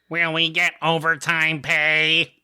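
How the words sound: It is said imitating Squidward's voice.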